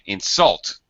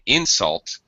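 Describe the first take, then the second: First: The stress is on the second syllable. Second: The stress is on the first syllable. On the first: The word is used as a verb. "So we stress the second part of the word" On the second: The word is used as a noun. "the stress in the first part when it's a noun"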